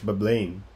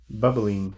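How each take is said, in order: First: The name ends with a 'lane' sound. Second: The name ends with an 'ing' sound. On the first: The speaker calls it right. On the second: The speaker calls it wrong.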